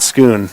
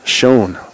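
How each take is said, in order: First: The name is said with an 'oo' vowel. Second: The name is said without an 'oo' vowel. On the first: The speaker calls it wrong. "It is not Schoon" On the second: The speaker calls it right. "It is Schoen"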